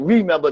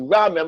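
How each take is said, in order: First: The first syllable is said as 'ree'. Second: The first syllable is said as 'rah'. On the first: The speaker calls it wrong. "not remember" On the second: The speaker calls it right. "to remember. Because once you use the word "ra" again"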